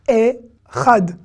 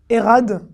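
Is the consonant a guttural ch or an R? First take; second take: guttural ch; R. First: The consonant is a guttural ch sound. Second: The consonant is a plain R sound. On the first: The speaker calls it right. "C'est pas un R, c'est un Chet" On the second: The speaker calls it wrong. "vous dites Erad, ça va pas aller"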